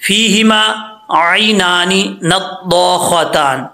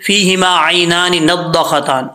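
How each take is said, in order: First: "नद्दाख़तान" slowly, the aa after dd held long; measured chant, long vowels in "नद्दाख़तान"; correct recitation. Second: "नद्दाख़तान" with the aa after dd cut short; "नद्दाख़तान" passed over quickly, long vowel lost; dropped alif. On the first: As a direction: recite "फ़ीहिमा आइनानी नद्दाख़तान" slowly with every alif lengthened. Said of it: "ये देखें". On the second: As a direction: demonstrate the mistake, reciting "फ़ीहिमा आइनानी नद्दाख़तान" without holds. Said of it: "अलिफ छोड़ देते हैं". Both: Shown as a demonstration.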